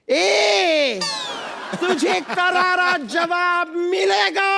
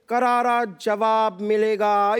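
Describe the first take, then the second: First: It is said in an exaggerated, dramatic way. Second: It is said in a natural, understated way.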